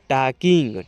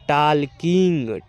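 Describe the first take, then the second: First: The L sound is left out of the word. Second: The L sound is pronounced in the word. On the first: The speaker calls it right. "यहाँ पर जो एल है यहाँ पर silent रहेगा" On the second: The speaker calls it wrong. "टालकिंग नहीं पढ़िएगा"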